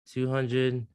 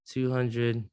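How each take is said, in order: Both takes have the same delivery.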